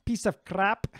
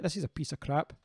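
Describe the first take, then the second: First: Quick Scottish accent, pitched up. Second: Said in the usual way. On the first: Shown as a demonstration. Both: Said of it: "in a Scottish accent".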